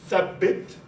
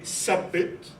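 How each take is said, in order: First: It begins with a soft th sound. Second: It begins with a hissing s sound. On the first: This is the standard formal form. "in modern standard Arabic, it's thabbit" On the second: This is a relaxed everyday form. "when people are easy in pronunciation, they would say sabbit"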